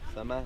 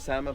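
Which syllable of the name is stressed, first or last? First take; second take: last; first. First: The stress is on the last syllable. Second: The stress is on the first syllable. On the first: The speaker calls it right. "always is the last syllable that sounds" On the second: The speaker calls it wrong. "some say Sama, but it's not the Sama"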